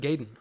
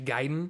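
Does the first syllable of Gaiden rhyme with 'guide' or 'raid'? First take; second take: raid; guide. First: The first syllable rhymes with 'raid'. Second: The first syllable sounds like 'guy'. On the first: This is how it was misread as a child. The speaker calls it wrong. "I always said Gaiden. / because I always thought Raid" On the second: This is the proper pronunciation. The speaker calls it right. "I didn't know pronunciation back then"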